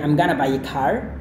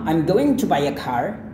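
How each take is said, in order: First: Going to is reduced to gonna. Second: Going to is said in full. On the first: "dihilangkan lagi menjadi I'm gonna buy a car"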